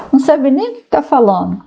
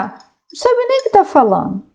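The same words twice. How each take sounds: First: Said in the usual way. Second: Much higher-pitched repeat of the dismissal; exasperated dismissal. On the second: Real, not acted. Speaker dismissing people who attack communism, exasperated. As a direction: throw it out high, in exasperation.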